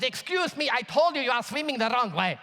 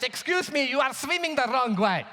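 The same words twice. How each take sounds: First: Imitating an irate German man's repeat warning; mock angry German. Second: Imitated stern objection, pitched up; higher-voiced mock telling-off; German man's reprimand. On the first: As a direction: scold the swimmer for ignoring you, mildly acted. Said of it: "This time he's angry, screaming at my brother". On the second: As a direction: correct a swimmer as the indignant German man. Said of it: "German man stands up".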